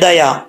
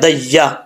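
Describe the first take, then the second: First: The 'y' sound is short and single. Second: The 'y' sound is doubled and held. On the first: The speaker calls it wrong. "ऐसा नहीं करना" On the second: The speaker calls it right. "दई या जबर या"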